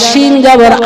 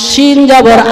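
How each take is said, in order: No difference in how they are said.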